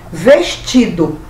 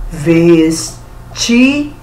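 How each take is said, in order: First: Said in the usual way. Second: "Vestido" drawn out in three separate syllables; slow, syllable by syllable. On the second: Shown as a demonstration. Teacher showing pupils how to count syllables, slowly syllable by syllable. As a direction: break "Vestido" into ves, ti, do, very slowly. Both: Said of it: "Você pronunciar a palavra devagarinho".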